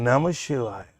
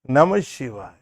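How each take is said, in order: First: It is said warmly, with feeling and love. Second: It is said warmly, with feeling and love.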